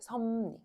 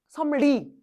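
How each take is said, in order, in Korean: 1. 가운데 자음 둘 다 바뀌어요. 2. 앞쪽 가운데 자음 하나만 바뀌어요. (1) "자연스럽게 하면 뭐가 되냐면 섭리가 돼" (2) "섬리 이거 되게 이렇게 의도하고 발음해야 되지 않아?"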